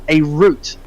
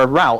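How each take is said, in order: First: The word is said in a non-American way. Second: The word is said in an American way.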